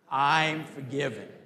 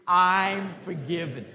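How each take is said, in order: First: It is said in a plain, calm way. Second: It is said with lively, enthusiastic energy.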